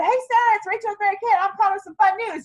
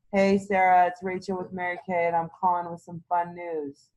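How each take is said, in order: First: Much higher, bright and bubbly; an eager, upbeat call full of enthusiasm; excited phone voice. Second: Lower, dull and unexcited; a lightly voiced bored caller with no enthusiasm; flat, bored phone voice. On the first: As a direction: sell the fun news like you can't wait. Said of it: "and I'm excited". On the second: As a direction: read it like a chore. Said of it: "there's no fun excitement in that voice". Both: Shown as a demonstration.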